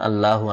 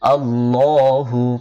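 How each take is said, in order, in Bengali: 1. L এর উচ্চারণ সরু ও হালকা। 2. L এর উচ্চারণ মোটা ও ভারী। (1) "অনেকে বলে, এটা ভুল" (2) "মোটা করে"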